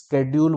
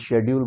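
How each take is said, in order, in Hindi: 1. यह शब्द "sk" ध्वनि से शुरू होता है। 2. यह शब्द "sh" ध्वनि से शुरू होता है। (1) "अगर आप स्केड्यूल बोल रहे हो तो भी ठीक है" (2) "मैं उसे शेड्यूल बोलता हूँ"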